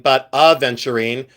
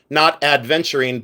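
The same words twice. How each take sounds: First: "aventurine" with no D, a-ven-tu-rine, as the correct way; right pronunciation. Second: "adventurine" with a D sound before the V, as the wrong way; wrong pronunciation. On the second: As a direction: say "adventurine" with an added D, ad-ven-tu-rine. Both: Shown as a demonstration. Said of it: "That's like a pale aventurine".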